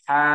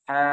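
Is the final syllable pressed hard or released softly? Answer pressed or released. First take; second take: pressed; pressed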